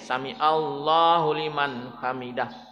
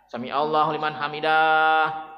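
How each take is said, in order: First: The final syllable 'dah' is kept short. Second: The final syllable 'dah' is drawn out long. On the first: The speaker calls it right. "Dahnya pendek" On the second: The speaker calls it wrong. "dahnya panjang ... itu salah Pak"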